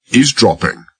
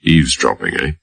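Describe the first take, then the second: First: "Eavesdropping?" thrown back high in outrage; indignant echo. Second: Said in the usual way. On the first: A narrator's reading. Old driver accused of eavesdropping, echoes it indignant and high. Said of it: "Henry's tone and expression reflected indignation or incredulity". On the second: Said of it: "McAlpine said without inflection".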